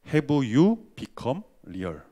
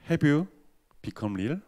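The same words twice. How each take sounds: First: It is spoken slowly, each word clearly separated. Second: It is spoken at a normal, flowing pace.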